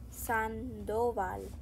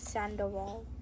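First: Said the Spanish way with a clear final L. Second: Said the English way with an English L. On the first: The speaker calls it right. "like in the Spanish kind of like talking-ish" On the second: The speaker calls it wrong.

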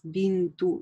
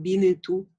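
First: The n joins the t directly. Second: A short vowel comes between n and t. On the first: The speaker calls it right. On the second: The speaker calls it wrong.

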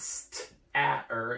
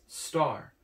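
First: The vowel is a separate short 'a' followed by an 'er' sound. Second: The vowel and R blend into one 'ar' sound. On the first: The speaker calls it wrong. "this word isn't st-a-er" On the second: The speaker calls it right. "it's star"

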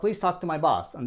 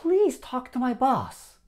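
First: The word please has no special force. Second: The word please is said with strong force. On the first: It is a simple request to talk to the boss. "普通に言うと" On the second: The speaker is begging for it to happen. "please をこう…ちょっと強調して、ちょっと力入れて言うと"

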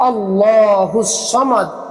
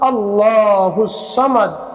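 Both takes have the same delivery.

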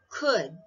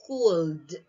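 First: The L is silent before the final D. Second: The L is pronounced before the final D. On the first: The speaker calls it right. "silent L" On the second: The speaker calls it wrong. "Not cold"

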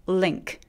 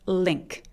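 The two takes are said the same way.

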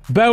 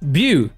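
First: The name is said with an 'oh' vowel. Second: The name is said with an 'ew' vowel. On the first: This is the accepted pronunciation of the name. The speaker calls it right. "I'll pronounce it how it's supposed to be" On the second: This is the speaker's own preferred pronunciation. The speaker calls it wrong. "I feel like it should be pronounced Bew"

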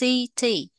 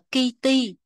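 First: The word begins with a soft S sound. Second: The word begins with a hard K sound. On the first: The speaker calls it right. "mà đọc là city" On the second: The speaker calls it wrong. "không phải đọc là kitty"

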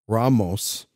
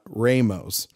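First: The first vowel sounds like 'ah'. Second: The first vowel sounds like 'ay'. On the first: The speaker calls it right. "played by Anthony Ramos" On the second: The speaker calls it wrong. "not Ramos"

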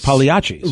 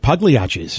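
First: The 'g' in the word is silent. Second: The 'g' in the word is hard. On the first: This is the original Italian way to say it. "if you're from Italy, the G's are silent" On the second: This is an Americanized way to say it. "he thought it would make it more American if he made the G hard"

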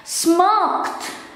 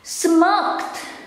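The two takes are said the same way.

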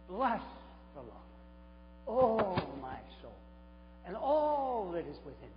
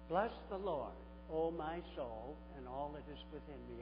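First: It is read in a lively, enthusiastic way. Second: It is read in a flat, unexcited way. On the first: The reader shares the writer's excitement. The speaker calls it right. "if I said it this way" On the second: The reader does not grasp the feeling behind the words. The speaker calls it wrong. "it's usually read this way by us"

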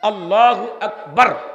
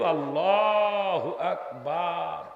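First: The vowels are kept short without stretching. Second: The vowels are stretched out very long. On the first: The speaker calls it right. "বার কোনো টান নাই" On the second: The speaker calls it wrong. "একে 10 আলিফ বানিয়ে দিয়েছে"

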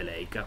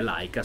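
First: The first syllable is said as 'lei'. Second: The first syllable is said as 'lai'. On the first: It is the Italian way of saying the name. The speaker calls it wrong. "lo si dice all'italiana" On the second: It is the German way of saying the name. The speaker calls it right. "se lo si vuole dire alla tedesca"

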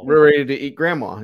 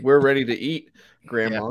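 First: There is no pause before grandma. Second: There is a pause before grandma.

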